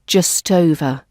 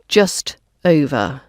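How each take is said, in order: First: The two words are run smoothly together. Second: The two words are said separately.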